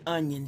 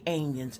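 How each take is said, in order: First: The first vowel sounds like the vowel in 'cut'. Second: The first vowel sounds like the vowel in 'cat'. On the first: This is the usual way to say it. "She wouldn't say onions" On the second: This is how a late relative said it. "She would say onions. A N I O N S"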